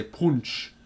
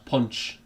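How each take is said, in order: First: "punch" with the northern "oo" vowel, as in "put"; Sunderland pronunciation. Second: Said in the usual way. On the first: Shown as a demonstration. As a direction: say "punch" like "poonch", Sunderland style. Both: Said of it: "they say punch".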